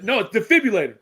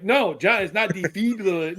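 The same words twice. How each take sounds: First: Defibrillator said properly, de-FIB-ril-la-tor, a bit louder; correct pronunciation. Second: Defibrillator said the wrong way, as John says it; mocking mispronunciation. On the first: Shown as a demonstration. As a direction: correct him: defibrillator, clearly. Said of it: "there's only one way to say that". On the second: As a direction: imitate John's botched defibrillator. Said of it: "you try to get him to say defibrillator".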